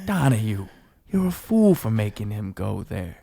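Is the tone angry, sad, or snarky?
sad. It sounds sad.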